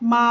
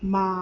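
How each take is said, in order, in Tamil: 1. பிட்ச் சமமாகவும் நீளமாகவும் இருக்கிறது. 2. பிட்ச் கீழே இறங்கி, பிறகு ஏறுகிறது. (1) "ஃப்ளாட் டோன" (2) "இறக்கி திருப்பி மேலே ஏத்தி சொல்லணும்"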